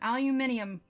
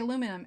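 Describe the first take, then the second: First: It has five syllables, with an extra i sound. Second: It has four syllables, with no extra i sound. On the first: "if we were to pronounce the I, it would be aluminium" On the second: "We say aluminum"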